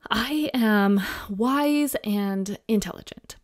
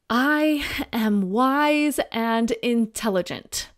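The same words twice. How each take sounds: First: It is said quietly and hesitantly. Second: It is said loudly and forcefully. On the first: The person does not yet believe the statement. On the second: The person is trying to sound convinced. "encouraging them to say it louder, more forceful. So they try again"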